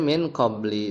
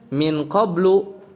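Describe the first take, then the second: First: The word ends with an i vowel. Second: The word ends with an u vowel. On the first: The speaker calls it right. "tapi dibacanya min qabli dengan khafat tanpa tanwin" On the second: The speaker calls it wrong. "bukan dibaca min qablu kayak di teks tadi"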